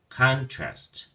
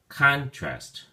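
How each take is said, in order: First: The stress is on the first syllable. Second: The same.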